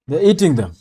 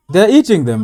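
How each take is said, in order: First: Said in the usual way. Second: "eating" hit harder and louder; louder repeat. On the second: Real, not acted. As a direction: say it again, much louder, in disbelief.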